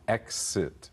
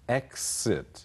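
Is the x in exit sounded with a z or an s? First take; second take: s; s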